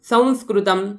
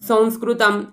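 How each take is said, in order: The two takes are said the same way.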